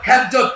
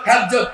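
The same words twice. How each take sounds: The two takes are said the same way.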